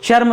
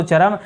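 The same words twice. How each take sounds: First: चर्म with r and m run together; गलत उच्चारण चर्म. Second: चरम in two syllables, cha-ram; सही उच्चारण चरम. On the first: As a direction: say चर्म as one closed charm. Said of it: "चर्म तो होता नहीं है". (चर्म, आधे र के साथ) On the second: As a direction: open a vowel between r and m in चरम. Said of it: "ऐसे लिखा जाता है दोस्तों चरम". (चरम, र और म अलग-अलग) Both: Shown as a demonstration.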